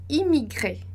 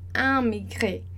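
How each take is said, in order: First: The first vowel is oral, not nasalized. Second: The first vowel is nasalized. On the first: The speaker calls it right. "E sem fazer o som nasal" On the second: The speaker calls it wrong. "A gente não vai dizer, por exemplo, amigré"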